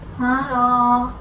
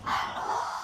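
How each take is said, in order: First: The word sounds blocked, with too little nasality. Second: The word is whispered without voice. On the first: "Kurang nasal... suara akan menjadi seperti ini" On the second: "ketika kita sedang berbisik"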